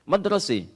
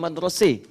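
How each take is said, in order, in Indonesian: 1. Vokal akhirnya condong ke 'e'. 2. Vokal akhirnya condong ke 'e'.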